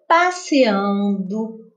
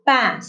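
First: Said in the usual way. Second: "passeando" in isolated syllables, long pauses between; separado em sílabas. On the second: Shown as a demonstration. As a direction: say "passeando" one syllable at a time. ("passeando" sílaba por sílaba, com pausas) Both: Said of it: "Eu separei as sílabas".

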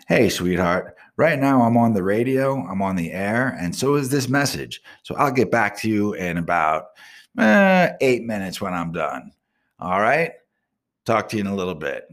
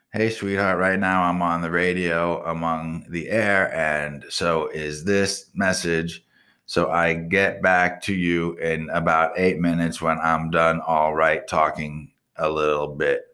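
First: Clear, deliberate dictation into the phone; dictating a text. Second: Slow, flat read-back of the garbled message; reading back the text. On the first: Shown as a demonstration. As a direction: speak each word carefully for voice to text. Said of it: "Let me text her back". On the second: Retold or imitated. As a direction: read it out slowly, word by word, like a machine transcript. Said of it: "so that message got fucking sent".

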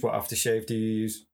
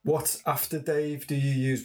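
First: Said in the usual way. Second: "after Dave" said in place of aftershave; slip of the tongue. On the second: Real, not acted. Asking the guest about his scent, slip of the tongue. Slips on aftershave, then corrects it.

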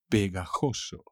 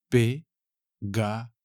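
First: Said in the usual way. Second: "Pegajoso" slowly split as pe, ga, jo, so; "Pegajoso" broken up for a learner: pe... ga... jo... so; syllable by syllable. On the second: Shown as a demonstration. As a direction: separate each syllable of "Pegajoso" with a pause. Teacher breaks word into syllables.

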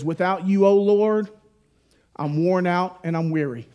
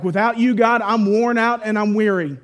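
First: Said in the usual way. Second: Louder, higher, pleading as if worn out; a louder, higher plea to God; pleading cry. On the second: Shown as a demonstration.

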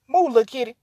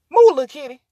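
First: Said in the usual way. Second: Louder call to move the kitty; louder coaxing. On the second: Real, not acted. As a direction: push it out louder. Shooing the cat louder.

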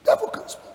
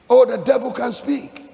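First: Nearly voiceless, falling away; hushed repeat. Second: Raised pitch, emphatic exclamation; exclaimed warning. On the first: Preacher repeating the warning about the devil, hushed. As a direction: let it drop to a hush. Quiet repeat after the exclamation. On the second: Preacher warning believers about the devil, high exclamation. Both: Real, not acted.

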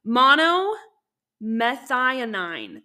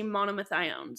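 First: "monomethionine" slowly and loudly as MO-no-meth-EYE-uh-nine; very slow, careful "monomethionine" with every syllable given; sounded-out pronunciation. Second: "monomethionine" said quickly as mono-meh-THIGH-own; quick "monomethionine" with an "-own" ending; quick mispronunciation. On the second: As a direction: drop the last syllable of "monomethionine", ending "-own". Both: Real, not acted. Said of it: "that's how you say it".

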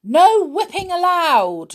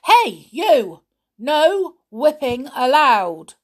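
First: High, loud stern shout; shouting pixie. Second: Loud, slow warning yell; angry repeat shout. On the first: Pixie in charge shouts at Winks on the roundabout, loud stern shout. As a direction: bellow the rule at the rule-breaker. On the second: Pixie in charge repeats the warning to Winks, slow loud shout. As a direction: call him out again, sterner. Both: Acted. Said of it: "shouted the pixie in charge".

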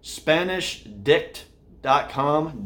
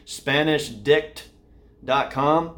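First: Slow spelled-out. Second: Slow, careful repeat of the web address; carefully spaced out for podcast listeners; slow and clear. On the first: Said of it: "this is tough for the podcast viewers". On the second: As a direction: say each word slowly so listeners catch it. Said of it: "If you cannot hear that's what that is". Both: Shown as a demonstration.

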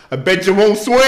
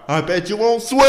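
First: Loud taunting yell, higher; mock yell. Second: Louder higher taunt; mock yell. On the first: Driver taunting workers from car, loud mock yell. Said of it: "you yell out". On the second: Driver yelling out the car at workers, mock taunt. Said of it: "Someone yelled".

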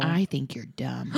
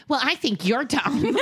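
First: Put-on low, slow, deliberate child's insult. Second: High, slow snap-back; childish retort. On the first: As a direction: imitate a kid solemnly delivering a verdict. Child's insult, retold slowly. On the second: Pretend. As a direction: throw the insult back like a petulant kid. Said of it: "I wanted to be like".

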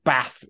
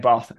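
First: "Bath" with a short flat A as in cat; northern English "Bath", vowel kept short. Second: "Bath" with a long AH as in father; southern English "Bath", vowel drawn back and long. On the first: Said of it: "your accent". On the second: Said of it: "the same for me saying Bath". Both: Shown as a demonstration.

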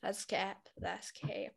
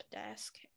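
First: Softer, fading echo; quiet. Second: Unvoiced whisper trailing off. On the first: Acted. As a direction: murmur it back, dropping away. Echoing friend, fading quieter. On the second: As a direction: whisper it to yourself. Echo fades into whisper.

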